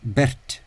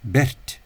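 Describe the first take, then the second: No difference in how they are said.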